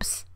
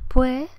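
First: The vowel is almost lost, leaving only p and s. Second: The final s is dropped, vowels drawn out. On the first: "pierde casi la vocal para quedar en un ps prácticamente" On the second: "Como andaluza lo que digo es pues"

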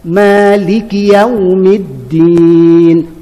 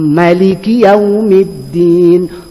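First: The first vowel of Maliki is drawn out long. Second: The first vowel of Maliki is kept short. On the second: "Nabi baca dengan pendek"

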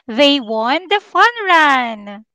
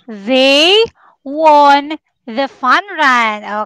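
First: It is said faster. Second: It is said at a normal pace.

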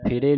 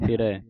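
First: The word ends in a plain 'e' vowel. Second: The word ends in an 'ai' vowel. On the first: The speaker calls it wrong. "ਫਿਰੇ ਨਹੀਂ ਕਹਿਣਾ" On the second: The speaker calls it right. "ਕਹਿਣਾ ਫਿਰੈ"

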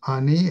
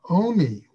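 First: The word begins with an 'a' vowel. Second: The word begins with an 'o' vowel. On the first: It means the bread of a poor man. "do we read it as Ani, as, for example, poor man's bread" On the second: It means the bread over which things are answered. "We read it Oni with a long vav"

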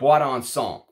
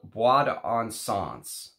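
First: The name is said with a French-style pronunciation. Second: The name is said with an English-style pronunciation.

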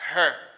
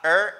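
First: The word starts with an h sound. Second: The word starts without an h sound. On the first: The speaker calls it right. "it's her" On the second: The speaker calls it wrong. "It's not er"

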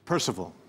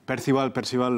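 First: It is pronounced with an English accent. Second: It is pronounced with a Spanish accent. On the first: "En inglés se dice, lo voy a decir en inglés" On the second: "Pero en español"

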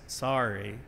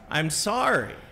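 First: It is said quietly and grudgingly. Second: It is said more loudly and forcefully.

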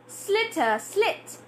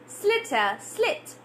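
Both takes have the same delivery.

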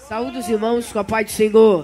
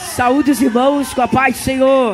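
First: It is said at normal volume. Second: It is shouted loudly.

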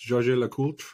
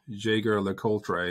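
First: The name is pronounced in a French way. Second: The name is pronounced in a German way. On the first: "I think it's French, so it's" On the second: "it looks like this, Jaeger LeCoultre, if you're German"

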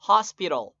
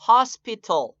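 First: The t sound is soft and barely heard. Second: The t sound is clearly pronounced.

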